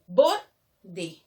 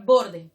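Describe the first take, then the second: First: "Borde" in two parts, loud first syllable; "Borde" split, stress on the penultimate BOR. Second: Said in the usual way. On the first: Shown as a demonstration. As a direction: punch BOR, pause, then a lower "de". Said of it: "La mayor fuerza de voz en la penúltima sílaba". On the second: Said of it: "qué pasa con la palabra borde".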